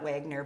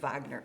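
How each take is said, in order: First: The name begins with a W sound. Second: The name begins with a V sound. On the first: The speaker calls it wrong. "not Wagner" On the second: The speaker calls it right. "W is pronounced as a V"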